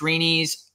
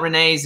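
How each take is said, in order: First: The name ends with an 'ee' sound. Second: The name ends with an 'ay' sound. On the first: The speaker calls it right. "it's Reenie's" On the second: The speaker calls it wrong. "it's not Renee's"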